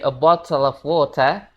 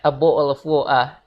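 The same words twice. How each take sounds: First: The T sounds are fully pronounced. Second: The T sounds are glottal stops. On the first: "Harusnya dari" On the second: "mereka bilangnya ... huruf T di situ mereka jadiin kayak K"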